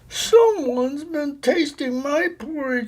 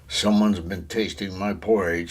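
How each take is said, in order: First: The voice sounds wee and little. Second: The voice sounds great and big. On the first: "in his wee little voice" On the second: "in his great big voice"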